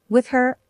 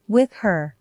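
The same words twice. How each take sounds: First: "With her" repeated in a higher, stunned pitch. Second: Said in the usual way. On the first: A narrator's reading. Wife echoing her husband's confession, stunned. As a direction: echo it in disbelief. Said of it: "I repeated, the words tasting like poison". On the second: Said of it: "It means I'm leaving".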